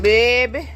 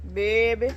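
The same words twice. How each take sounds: First: Put-on loud Louisiana-style "Baby." with a rising end; Louisiana stepdaughter's baby. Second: Said in the usual way. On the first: Copying her Louisiana stepdaughter, a loud Louisiana baby. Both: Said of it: "That's how she said".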